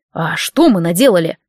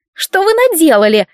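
First: Lower, innocent, stress on мы; curious question. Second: High, accusing, stress on вы; creaky complaint. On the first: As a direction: ask «мы» with open curiosity. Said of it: "с нескрываемым любопытством спросил Ладик". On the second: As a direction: grate out «вы» as the blame. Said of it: "проскрипела заказчица". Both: Acted.

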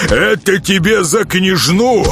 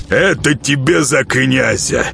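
First: Higher and slow, leaning on КНЯЖНУ in Это тебе за княжну; gloating while beating. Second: Slow, punching out ЭТО in Это тебе за князя; each blow a word, stress on Это; gloating while beating. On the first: Nezhato strikes again for the princess, higher, stress on княжну. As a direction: rise to the word княжну and land it hard. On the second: Nezhato beats the boyar for the prince, slow punched stress on Это. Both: Acted. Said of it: "приговаривая".

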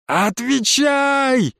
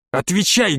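First: Drawn-out high yell; yelled demand. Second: Said in the usual way. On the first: A narrator's reading. Boy yells at the witch to answer, long drawn-out yell. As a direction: roar the word out long. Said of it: "заорал я".

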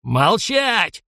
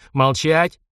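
First: Higher, sharp shouted command; commanding bellow. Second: Short growled order, less of a shout; a touch of a growl. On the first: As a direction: bellow to silence the room. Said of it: "гаркнул полковник". (полковник гаркнул на ротмистра, громкий окрик) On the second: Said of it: "рыкнул он". (полковник рыкнул, обрывая ротмистра) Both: Acted.

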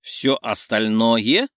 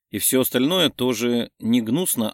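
First: Slow, rising disbelief; stunned question. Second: Said in the usual way. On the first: A narrator's reading. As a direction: repeat it slowly, dumbstruck. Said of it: "захлопала ресницами Ланка".

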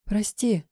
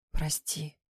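First: A slightly higher, embarrassed squeak; mild embarrassed squeak; squeaked sorry. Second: Soft, hushed sorry; a hushed, guilty sorry; whispered apology. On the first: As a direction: squeak the apology out, caught off guard. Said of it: "пискнула я". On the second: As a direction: breathe the apology out quietly. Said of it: "прошептала я". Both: A narrator's reading.

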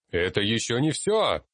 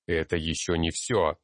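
First: Moderately raised cry, higher pitch; restrained angry shout, pitched up. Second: Firm, contained outburst; blurted out. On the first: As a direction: call out angrily over a noisy hall, without full force. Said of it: "крикнул я, злясь и на них". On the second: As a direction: push it out firmly, without shouting. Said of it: "и я выпалил". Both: A narrator's reading.

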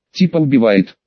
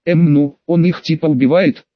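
First: Lightly mimicking the other's words; understated teasing echo; mocking mimicry. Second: Mildly unsure, groping reply; a touch of stumped hesitation; hesitant answer. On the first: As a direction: parrot it back with mild mockery. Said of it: "передразнила его Кира". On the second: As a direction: fumble for an explanation. Stumped character answers hesitantly, then gets mimicked. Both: A narrator's reading.

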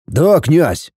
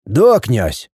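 First: Calm, matter-of-fact confirmation. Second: Mildly glum compliance; unenthusiastic. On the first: Voivode confirming his report to the prince, calm. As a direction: answer the prince evenly. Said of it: "спокойно ответил воевода". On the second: Voivode accepting the prince's order, unenthusiastic. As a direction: agree without any joy. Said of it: "как-то нерадостно ответил тот". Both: A narrator's reading.

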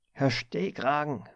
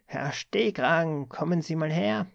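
First: Sharp rasping call. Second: Sharp rasping summons. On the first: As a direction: bark the nickname across the office. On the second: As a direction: drag him over with a harsh order. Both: A narrator's reading. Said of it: "schnarrte dann plötzlich eine scharfe Stimme".

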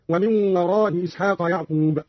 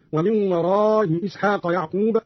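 First: "وراء إسحاق" with softened first hamza, shorter aa; softened hamza, short madd. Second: "وراء إسحاق" with softened first hamza, long aa; softened hamza, long madd. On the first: ("وراء" بتسهيل الهمزة مع القصر) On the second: ("وراء" بتسهيل الهمزة مع المد) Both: Shown as a demonstration. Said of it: "بتسهيل الهمزة الأولى مع المد والقصر هكذا".

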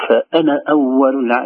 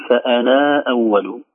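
First: فأنا with the alif dropped, short na. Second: فأنا with a long drawn naa, slow; wrongly lengthened alif. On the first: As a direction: keep the na of فأنا short in connection. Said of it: "نقول". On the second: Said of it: "لا نقول". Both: Shown as a demonstration.

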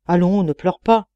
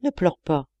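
First: Louder, mildly gruff urging; grumbling. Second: Understated, pleading softness; very gentle. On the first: Man to his weeping roommate, grumbled a little louder. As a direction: tell him to stop, with a touch of impatience. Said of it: "grommelait Laurent Petrovitch". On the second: Sick man comforting the weeping deacon, mildly tender. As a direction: gently beg him not to cry. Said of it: "d'une voix très douce". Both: A narrator's reading.

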